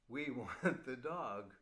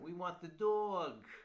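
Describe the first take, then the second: First: It is said in a plain, neutral accent. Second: It is said in a strong New York accent.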